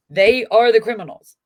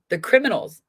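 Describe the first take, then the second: First: "the" punched loud before "criminals", falling hard; stress on THE. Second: "criminals" rising at the end, said as a loud point; rising emphasis. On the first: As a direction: hit "the" and let "criminals" fall. Repeats more forcefully. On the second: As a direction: lift "criminals" into a loud open question. Insists family are the criminals. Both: Real, not acted.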